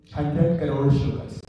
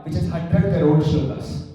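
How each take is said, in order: First: "Hundred crore shlokas" repeated slowly, each word weighted; slow down and let "Hundred" land heavy as the number sinks in; slow emphatic repeat. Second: Said in the usual way. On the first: Shown as a demonstration. Monk repeating the number for devotees, slow and weighted.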